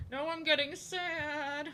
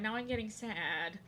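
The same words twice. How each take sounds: First: High, slow pouty sad voice; mock sad whine. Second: Said in the usual way. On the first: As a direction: pout it out. Repeating in a sadder voice.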